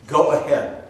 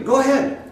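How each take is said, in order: First: Said in the usual way. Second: High, teasing go-ahead challenge; mocking dare. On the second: Preacher to the naive believer, high mocking dare. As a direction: goad them on in a high mocking voice.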